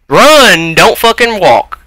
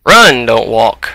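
First: Higher, louder repeated order; yelling at the sluggish character. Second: Said in the usual way. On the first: Real, not acted. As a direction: push harder on the second try.

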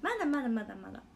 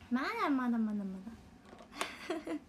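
First: Quick repeat. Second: Slow, stretched-out repeat; slow drawn-out. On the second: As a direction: drag each まだ out slowly. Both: Real, not acted. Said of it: "まだ酔ってないはず".

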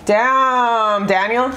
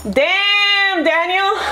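First: Said in the usual way. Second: Higher, giggly damn Daniel; lightly voiced meme quote; mock meme voice. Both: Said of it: "Damn, Daniel meme".

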